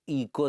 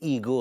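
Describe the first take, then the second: First: The middle consonant is a k sound. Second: The middle consonant is a g sound. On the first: The speaker calls it wrong. "वो ईको नहीं" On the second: The speaker calls it right. "ईगो होता है पगली"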